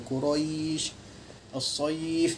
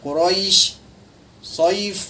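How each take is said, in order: First: The word endings are said softly and gently. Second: The word endings are pressed hard and forceful. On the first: The speaker calls it right. "Jadi kita baca secara lembut saja" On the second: The speaker calls it wrong. "Kita tak boleh baca keras macam Quraisy Saif. Ha, kita tekan"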